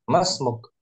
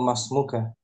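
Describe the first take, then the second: First: The phrase ends on a consonant, no final vowel. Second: The phrase ends with a final a vowel. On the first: The speaker calls it right. "Cara memberhentikan suara" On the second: The speaker calls it wrong. "Nggak perlu masmuka"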